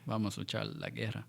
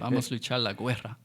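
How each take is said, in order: First: The U in guerra is silent. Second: The U in guerra is pronounced aloud. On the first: The speaker calls it right. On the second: The speaker calls it wrong.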